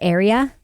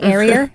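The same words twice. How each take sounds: First: The word ends in a plain vowel, no R. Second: The word ends with an added R sound. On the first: The speaker calls it right. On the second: The speaker calls it wrong.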